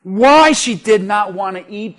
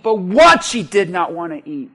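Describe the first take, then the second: First: Why lifted and stressed, rising at the end. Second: What stressed, then falling and lower. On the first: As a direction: lean on the word why. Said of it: "not because". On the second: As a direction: punch the word what, let the line drop. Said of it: "not because ... but". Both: Shown as a demonstration.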